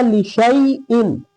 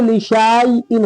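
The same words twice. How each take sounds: First: लिशैइन with a short "shai" diphthong, no long aa; sheen joined to ya. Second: लिशाइन with a long drawn "shaa" before the i; wrongly stretched. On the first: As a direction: glide straight from sheen into ya in लिशैइन. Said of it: "सीधा शीन को या में मिला देंगे". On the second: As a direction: drag the aa out in लिशाइन. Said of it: "खींचते तो लिशाइन हो जाता". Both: Shown as a demonstration.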